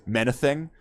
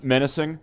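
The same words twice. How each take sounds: First: Menacing? with a lisped th sound in place of s; Tyson lisp. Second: Said in the usual way. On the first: Shown as a demonstration. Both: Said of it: "I'm out of my fucking Mike Tyson now".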